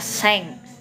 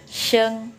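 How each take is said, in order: First: The word starts with an s sound. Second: The word starts with an sh sound. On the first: The speaker calls it wrong. "bukan dibacanya seng" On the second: The speaker calls it right. "tapi sheng ya"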